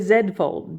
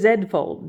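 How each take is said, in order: First: The letter is said as "zed", non-American style. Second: The letter is said as "zed", non-American style.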